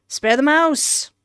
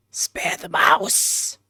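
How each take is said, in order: First: Raised-pitch, firm plea; insistent plea. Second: Slow, voiceless plea; whisper. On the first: Acted. Player telling the narrator to save the mouse, insistent plea. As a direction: say it higher, as a quick insistent choice. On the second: Pretend. Player still choosing to save the mouse, drawn-out whisper. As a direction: whisper it slowly and insistently.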